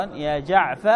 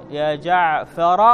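First: يا جعف cut short after the ف, no ر at all; corrected truncated form, said plainly; clipped name demo. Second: يا جعفر said slowly with the final ر clearly kept; teacher slowly voicing the full name; full name demo. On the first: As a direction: drop the ر and stop dead on جعف. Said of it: "عفوًا". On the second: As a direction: give يا جعفر whole and slow, the ر intact. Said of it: "فتقول". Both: Shown as a demonstration.

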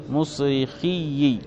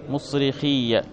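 First: مصرخي said "musrikhiyyi", ending in i; doubled ya with kasra. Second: مصرخية said "musrikhiyya", ending in an open a; doubled ya with fatha. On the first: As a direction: slowly end مصرخي on a doubled "-yyi". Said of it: "بكسر الياء مشددة". (مصرخي بكسر الياء المشددة في آخرها، ببطء) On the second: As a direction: end مصرخية on a doubled "-yya". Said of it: "بفتح الياء مشددة". (مصرخية بفتح الياء المشددة في آخرها) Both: Shown as a demonstration.

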